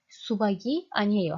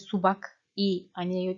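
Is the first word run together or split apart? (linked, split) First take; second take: linked; split. First: Subak and i run together as subagi. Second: Subak and i are said separately with a k. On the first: The speaker calls it right. "Hani ulama yapar gibi okuyacaksınız" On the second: The speaker calls it wrong. "Böyle subak i aniyeyo değil"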